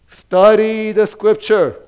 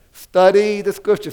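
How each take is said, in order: First: Slow and loud, each word weighted; study the Scripture drawn out and punched loud; emphatic stress. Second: Loud, Study punched at the front; Study hit hard, falling off on Scripture; repeated emphasis. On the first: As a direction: lean hard on study the Scripture, slowly. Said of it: "what we are stressing is". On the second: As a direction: hammer Study again at normal speed. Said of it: "Say that to your neighbor". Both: Shown as a demonstration.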